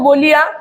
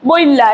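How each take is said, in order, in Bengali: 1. i ধ্বনিটি l-এর পরে আসে। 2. i ধ্বনিটি l-এর আগে আসে।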